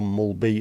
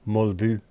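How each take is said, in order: First: The final vowel is an English 'ee' sound. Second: The final vowel is a Danish rounded sound. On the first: The speaker calls it wrong. "it's not Jan Mulby" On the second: The speaker calls it right. "it's Mulbu"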